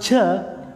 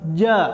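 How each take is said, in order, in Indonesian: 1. Konsonan itu diucapkan dengan desis napas. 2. Konsonan itu diucapkan tanpa desis napas. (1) "nah itu hamas" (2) "tidak ada nafas keluar"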